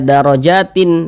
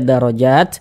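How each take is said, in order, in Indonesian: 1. Kata ini berakhir dengan bunyi 'in' yang ditambahkan. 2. Kata ini berhenti tegas pada huruf 't' di akhir. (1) "Tidak dibaca darajatin" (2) "tapi dibaca darajat"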